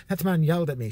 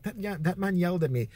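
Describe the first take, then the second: First: Said in the usual way. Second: Softer imitated Irish woman; Irish accent. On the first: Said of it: "She was Irish". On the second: Irish old lady complaining about the man, light Irish accent. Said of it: "She was Irish. She's like".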